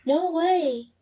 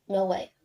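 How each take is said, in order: First: "No way!" as happy disbelief, lifted high; surpresa. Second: "No way." low with a falling tone, not believing it; doubt. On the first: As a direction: exclaim NO WAY in surprise, pitched higher with a rising tone. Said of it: "express the feeling of surprise". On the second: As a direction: say NO WAY doubtfully, dropping the pitch. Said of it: "express the feeling of doubt". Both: Shown as a demonstration.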